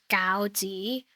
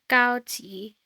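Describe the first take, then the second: First: It is said with the tone for dumplings. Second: It is said with the tone for tape. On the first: The word means dumplings. "which is dumplings" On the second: The word means tape. "which is uh, tape"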